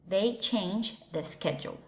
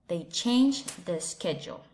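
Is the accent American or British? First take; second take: American; American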